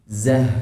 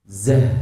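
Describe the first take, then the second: The two takes are said the same way.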